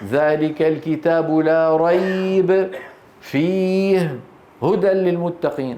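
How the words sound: There are pauses after la rayb and fihi. The speaker calls it wrong. "أن تقف على كليهما"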